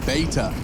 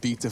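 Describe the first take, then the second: First: It is said with an American pronunciation. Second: It is said with a British pronunciation.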